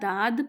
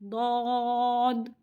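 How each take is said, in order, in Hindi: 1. d के बाद का स्वर सादा लंबा aa है। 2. d के बाद का स्वर aw ध्वनि है। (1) "ना दाद पढ़ना है" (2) "इसे पढ़ना है दौद"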